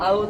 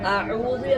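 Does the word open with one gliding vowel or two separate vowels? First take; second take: one vowel; two vowels. First: The opening vowels merge into one glide. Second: The opening vowels are kept apart. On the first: The speaker calls it wrong. "അത് തെറ്റാണ്" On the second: The speaker calls it right. "ശരിയായ തന്നെ ഓതണം"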